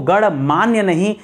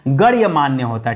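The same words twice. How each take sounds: First: गणमान्य said slowly as gaṇmānya, without the y, rising; wrong form shown. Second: गण्यमान्य said lower as gaṇya-mānya, with a clear y after ण; correct form shown. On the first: Teacher showing students the common wrong form, slow. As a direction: drawl गणमान्य as ganmanya, no य sound. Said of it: "गणमान्य नहीं होता दोस्तों". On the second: Teacher giving the correct form after the wrong one, firm. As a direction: give गण्यमान्य its full y: ganya-manya. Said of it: "गण्य करिएगा और तब मान्य करिएगा". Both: Shown as a demonstration.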